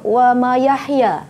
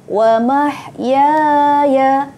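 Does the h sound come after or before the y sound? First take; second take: after; before. First: The h sound comes after the y sound. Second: The h sound comes before the y sound. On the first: The speaker calls it wrong. "Ramai Ustazah dapati murid-murid akan tersilap di sini" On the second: The speaker calls it right. "perhatikan betul-betul ya"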